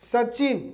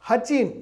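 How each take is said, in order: First: The name begins with an s sound. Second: The name begins with an h sound.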